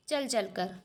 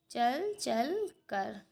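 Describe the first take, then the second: First: Said in the usual way. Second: चल चल कर drawn out very slowly, word by word; slow dictation. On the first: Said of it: "teacher giving example word". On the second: Shown as a demonstration. Teacher to pupils writing the answer, very slow dictation. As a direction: spell it out slowly so children can write. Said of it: "teacher repeats example slowly".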